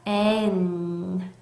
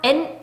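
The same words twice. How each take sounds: First: The sounds come out separately, one by one. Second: The sounds come out together in one burst. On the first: The speaker calls it right. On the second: The speaker calls it wrong.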